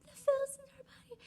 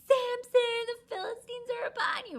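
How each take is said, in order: First: Very high, fast repeat of the warning; hurried alarm. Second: Very high, loud warning shout; alarm call. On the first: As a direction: rattle off the warning again. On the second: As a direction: shriek the warning. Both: Retold or imitated.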